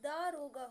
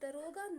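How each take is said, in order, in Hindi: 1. पहला स्वर दीर्घ है। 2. पहला स्वर ह्रस्व है। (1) "वो दारोगा होता है" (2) "दरोगा नहीं होता है"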